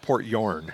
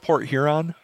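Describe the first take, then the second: First: The second word is squeezed into one syllable. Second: The second word has two full syllables. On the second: "Do you go to"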